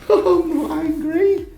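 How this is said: It is said in a joking, friendly tone. The remark is lighthearted banter. "Joking, friendly"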